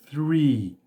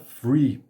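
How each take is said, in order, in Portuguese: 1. Começa com um som de th soprado. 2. Começa com um som de f. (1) "o correto é three" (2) "tem gente que fala free"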